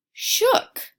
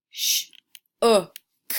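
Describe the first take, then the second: First: "shook" said whole, high and bright after sounding out; blended word. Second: "Sh-o-k" broken into sounds; sounding out letters. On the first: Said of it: "Say the word with me". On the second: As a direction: sound out "Sh-o-k" slowly. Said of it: "the word shook". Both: Shown as a demonstration.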